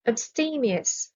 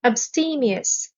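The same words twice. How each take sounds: First: AbSTEmious, slow and softer, weight on STE; stress on second syllable. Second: AbSTEmious, slow, weight on STE; stress on second syllable. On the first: Vocabulary teacher repeating the word slowly and softly for learners. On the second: Vocabulary teacher modelling the word slowly for learners, stress on STE. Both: Shown as a demonstration. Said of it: "The stress is on the second syllable".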